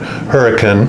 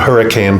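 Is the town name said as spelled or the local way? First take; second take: local way; as spelled. First: The name is said with the local pronunciation. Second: The name is said just as it is spelled. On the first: "here they pronounce it Hurricane" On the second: "it's spelled Hurricane"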